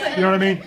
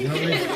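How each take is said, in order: First: Louder, laughing question. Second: Said in the usual way. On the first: Real, not acted. Teacher repeats her question to the class, laughing. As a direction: ask it again through a laugh. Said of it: "asked again, laughing". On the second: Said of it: "asked twice, then laughing".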